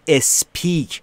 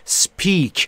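First: An extra vowel sound is added before 'sp'. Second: It starts directly with 'sp', no added vowel. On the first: The speaker calls it wrong. "نود و نه درصد ایرانی ها میگن speak. اشتباه" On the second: The speaker calls it right. "بین اس و پی صدایی وجود نداره و ابتداش هم صدایی وجود نداره"

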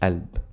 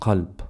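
First: The word begins directly with the vowel. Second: The word begins with a deep q sound. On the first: "in spoken, we don't need to pronounce the qaf, we say alb" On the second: "qalb, which means heart"

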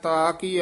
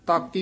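First: The two words are drawn out and apart. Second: The two words are run together quickly. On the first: The speaker calls it right. "ਲਮਕਾ ਕੇ ਬੋਲਣਾ" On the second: The speaker calls it wrong. "ਤਾਕੀ ਇਕੱਠਾ ਨਹੀਂ ਪਾਠ ਕਰਨਾ"

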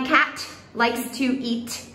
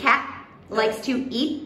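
First: The T in cat is fully released. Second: The T in cat is held, not released. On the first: The speaker calls it wrong. "we never say" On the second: The speaker calls it right. "We say cat likes to eat"

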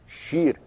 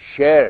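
First: It is said with today's usual vowel. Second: It is said with the older classical vowel. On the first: This is not how the word for lion was once said. The speaker calls it wrong. "شیر البته به این وجه تلفظ نمی شده" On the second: This is how the word for lion was once said. The speaker calls it right. "شیر تلفظ میشه"

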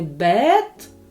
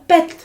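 First: The vowel is held long. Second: The vowel is cut short. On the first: The speaker calls it wrong. "не" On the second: The speaker calls it right. "голосний звук вимовляємо коротко"

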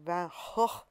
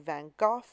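First: The name is said in a Dutch way. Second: The name is said in a British way. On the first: "I think in his native Dutch, it's more like Van Gogh" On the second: "If you're from the UK, people say Van Gogh"

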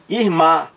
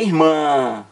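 First: The final vowel is oral, without nasal resonance. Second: The final vowel is nasal, resonating through nose. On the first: The speaker calls it wrong. "Se fosse oral, seria como?" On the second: The speaker calls it right. "Mas é irmã, ó, nasal"

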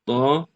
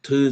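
First: The letter name ends in an open 'a' vowel. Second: The letter name ends in a close 'ı' vowel. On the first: The speaker calls it right. "tızı diye okuyor. Bu şekilde okumak yanlış" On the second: The speaker calls it wrong. "Bu aslında bir yanlış öğrenim oldu"

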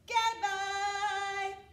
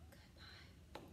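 First: It is said very loudly. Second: It is said very quietly.

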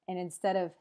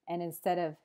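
The two takes are said the same way.

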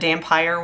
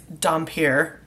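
First: The last syllable sounds like 'fire'. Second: The last syllable sounds like 'peer'. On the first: The speaker calls it wrong. "I think I actually said Dampire once. I put the E at the end" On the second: The speaker calls it right. "It's Dampier"

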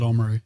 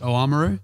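First: The opening vowel is dropped. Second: The full opening vowel is kept.

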